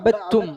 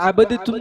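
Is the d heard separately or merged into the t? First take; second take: merged; heard. First: The d merges fully into a doubled t. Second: A separate d is heard before the t. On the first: The speaker calls it right. "അവിടെ ഇദ്ഗാം ചെയ്യണം" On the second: The speaker calls it wrong. "വേണ്ട, അവിടെ അങ്ങനെ ചെയ്യണ്ട"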